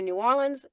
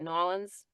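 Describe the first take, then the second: First: The name is said fully, with all syllables. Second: The name is said fast, squeezed into two syllables. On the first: "you're gonna hear either New Orleans" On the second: "if they say it fast, it might sound like Nolans"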